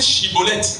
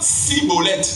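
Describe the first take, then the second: First: The word begins with a sh sound. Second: The word begins with an s sound. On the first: The speaker believes the whole revelation. The speaker calls it right. "prononcer Shibboleth" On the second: The speaker is an infiltrator or imitator. The speaker calls it wrong. "Mais ils disent Cibolette"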